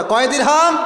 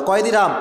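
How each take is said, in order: First: Higher-pitched call to the crowd; raised, insistent question; rousing prompt. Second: Said in the usual way. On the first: Real, not acted. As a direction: call out the question for a congregation to answer. Repeats prompt after urging an answer.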